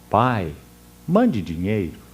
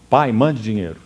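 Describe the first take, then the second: First: It is said in a gentle, pleading tone. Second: It is said in a harsh, demanding tone.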